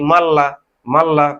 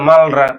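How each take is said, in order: First: The middle is said as a long double l. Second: The middle is said as l followed by r. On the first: The speaker calls it right. "কিন্তু হবে কি মাল্লা" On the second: The speaker calls it wrong. "মালরা উচ্চারণ"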